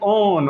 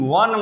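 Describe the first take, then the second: First: It starts with a plain 'o' vowel. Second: It starts with a 'w' sound. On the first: The speaker calls it wrong. "ये नहीं पढ़िएगा कि ओ है तो ओ N E ओन" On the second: The speaker calls it right. "ओ N E वन माने एक"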